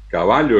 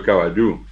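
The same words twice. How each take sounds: First: "caballo" stressed on the middle syllable; Spanish stress on BA in "caballo"; penultimate stress. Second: "caballú" stressed on its last syllable; Guaraní stress on the end of "caballú"; final-syllable stress. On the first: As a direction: say "caballo" as ca-BA-llo. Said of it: "tienen acentos llanos". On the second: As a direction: say "caballú" as ca-ba-LLÚ. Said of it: "El guaraní es un idioma de sílabas agudas". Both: Shown as a demonstration.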